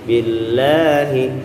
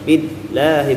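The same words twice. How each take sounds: First: The 'la' is drawn out smoothly for two beats. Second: The 'la' is clipped off abruptly at the lam. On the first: The speaker calls it right. "tapi tarik aja" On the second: The speaker calls it wrong. "bukan berarti harus dicentok huruf lam itu, bukan billahi"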